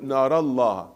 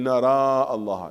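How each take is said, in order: First: The vowel after the r is short. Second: The vowel after the r is long. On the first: The speaker calls it right. "when you continue نرى الله" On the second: The speaker calls it wrong. "do not say نرى الله"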